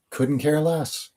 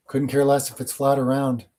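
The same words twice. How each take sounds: First: Care drawn out high and slow; mock indifference, slowed right down; slow dismissive drawl. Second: Said in the usual way. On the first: Shown as a demonstration. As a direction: let Couldn't care less drag out, lazily above your usual pitch.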